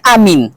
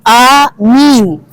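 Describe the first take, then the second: First: Both vowels are said short. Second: Both vowels are drawn out long. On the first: It is the campaign slogan for candidate pair one. "Paslon satu kan hanya amin" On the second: It asks God to accept our prayers. "A-nya panjang, min-nya panjang"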